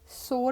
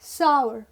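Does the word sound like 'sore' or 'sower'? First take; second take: sore; sower. First: The word sounds like 'sore'. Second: The word sounds like 'sower'. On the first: The speaker calls it wrong. "सोर नहीं है" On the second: The speaker calls it right. "It is सावर"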